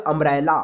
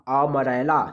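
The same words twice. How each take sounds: First: Said in the usual way. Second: अमरेला split up, opening "a" held apart; broken-up pronunciation. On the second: Shown as a demonstration. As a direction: sound out अमरेला piece by piece from its opening vowel. (अमरेला का पहला "अ" अलग करके बोलना) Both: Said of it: "पर अ का sound आएगा".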